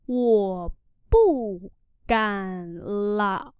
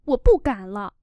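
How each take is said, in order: First: 我不敢 slow, then 了 apart; slow demo. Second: Said in the usual way. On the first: Shown as a demonstration. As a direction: draw out 我不敢 before 了. (đọc chậm 我不敢 rồi 了) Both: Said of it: "Tôi không dám nữa".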